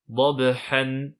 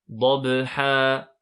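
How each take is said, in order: First: The word ends with an n sound. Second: The word ends with a lengthened vowel. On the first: The speaker calls it wrong. "on ne dit pas dabhan" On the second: The speaker calls it right. "mais plutôt dabha. On prononce bien deux temps"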